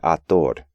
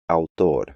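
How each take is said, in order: First: The au is reduced to a plain a. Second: The au is said as a full glide. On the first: The speaker calls it wrong. "the A U combination is often just pronounced A" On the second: The speaker calls it right. "when they should be"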